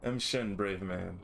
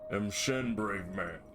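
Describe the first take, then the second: First: It is read in the speaker's own normal voice. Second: It is read in a put-on character voice. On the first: The speaker calls it wrong. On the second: The speaker calls it right.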